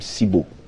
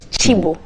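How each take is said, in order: First: The name begins with an s sound. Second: The name begins with a ch sound. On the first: The speaker calls it wrong. "the spelling sounds Cibo" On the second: The speaker calls it right. "pronounced as Chibo"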